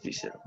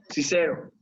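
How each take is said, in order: First: Cicero, very soft and faint; barely voiced. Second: Said in the usual way. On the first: Shown as a demonstration. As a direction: breathe Cicero almost inaudibly. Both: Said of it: "¿Cómo sonaría?".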